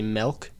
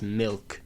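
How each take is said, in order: First: The vowel sounds like 'eh', as in 'melk'. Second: The vowel sounds like 'ih', as in 'milk'. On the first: The speaker calls it wrong. "Some people say milk, like M E L K" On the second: The speaker calls it right. "It's milk"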